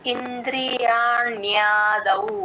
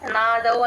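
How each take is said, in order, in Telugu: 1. 'n' తర్వాత 'ya' శబ్దం స్పష్టంగా వినిపిస్తుంది. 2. 'n' తర్వాత 'ya' శబ్దం వదిలేస్తారు. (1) "యావత్తు క్లియర్ గా ఇంద్రియాణ్యాదౌ అలా రావాలి" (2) "యూజువల్ గా నాదౌ అనే అనేస్తారు, యా వదిలేస్తారు"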